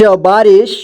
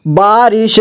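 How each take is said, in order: First: Said in the usual way. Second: बारिश as बा-रि-श; syllable by syllable. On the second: Shown as a demonstration. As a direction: sound out बारिश in three parts. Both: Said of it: "एक ही बार में पढ़ेंगे".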